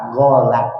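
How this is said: The word starts with a g sound.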